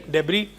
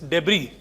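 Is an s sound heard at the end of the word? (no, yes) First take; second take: no; no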